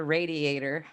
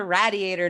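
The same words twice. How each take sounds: First: "radiator" as RAY-diator, long "a"; long-A pronunciation. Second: "radiator" as RAD-iator, short "a" as in "rad"; short-A pronunciation. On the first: Podcaster showing the version she rejects, RAY-diator pronunciation. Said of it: "not a radiator". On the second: Podcaster defending her family's word, RAD-iator pronunciation. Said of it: "it's a radiator, not a radiator". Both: Shown as a demonstration.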